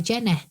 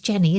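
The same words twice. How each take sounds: First: The name is said with a broad local ending. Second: The name is said in a neutral accent. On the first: "We do the ne on the end" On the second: "I don't say like, my name's Jenny"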